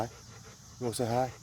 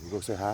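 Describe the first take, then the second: First: Higher, slow, softer sing-song coo. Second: Said in the usual way. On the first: Real, not acted. Man greets his dog in higher, slow baby talk.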